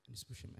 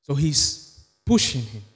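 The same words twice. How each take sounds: First: Breathy whispered repeat; hushed aside to the congregation; whispered echo. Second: Said in the usual way. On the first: Real, not acted. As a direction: let it fall to a whisper. Repeats line, then echoes softly.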